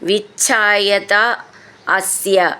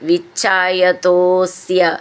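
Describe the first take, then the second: First: The two words are said separately, unmerged. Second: The two words are merged into one. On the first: This is the underlying form of the words. "വിച്ഛായത അസ്യ എന്നാണത് ശരിക്കും" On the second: This is how it is recited. "വിച്ഛായതോസ്യ, അങ്ങനെ പറഞ്ഞാൽ മതി"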